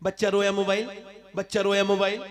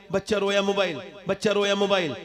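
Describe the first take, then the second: No difference in how they are said.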